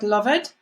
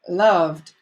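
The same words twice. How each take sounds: First: The ending is not a plain d sound. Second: The ending is a plain d sound. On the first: The speaker calls it wrong. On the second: The speaker calls it right.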